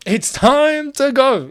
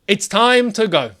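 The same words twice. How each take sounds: First: "It's time to go" stretched very slow and pitched higher, weighty; mock-solemn slow quote of the wise man; drawn-out quote. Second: Said in the usual way. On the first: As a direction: linger on every word like a sage. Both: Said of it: "a wise man once said".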